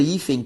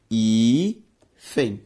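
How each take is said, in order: First: Said in the usual way. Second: "hífen" split into a long hí, then fen; syllable by syllable. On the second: Shown as a demonstration. Teacher showing the word separated, "hífen" syllable by syllable. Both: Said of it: "quando separada".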